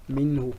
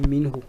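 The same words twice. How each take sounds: First: The pronoun is joined to the preceding word. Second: The same.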